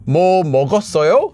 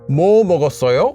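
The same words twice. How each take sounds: First: The emphasis falls on the verb 먹었어요. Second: The emphasis falls on the word 뭐. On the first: Asking whether something was eaten. "Did you eat something?" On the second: Asking what was eaten. "What did you eat?"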